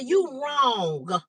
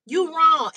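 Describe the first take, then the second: First: Said in the usual way. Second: "wrong" pressed down, a bit louder; firmer repeat. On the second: Retold or imitated. Telling her friend off on the phone, firm falling "wrong".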